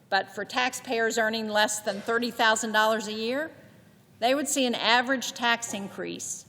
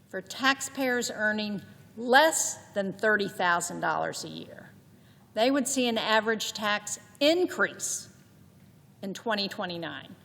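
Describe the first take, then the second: First: It is said with mild, plain emphasis. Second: It is said with strong, deliberate emphasis.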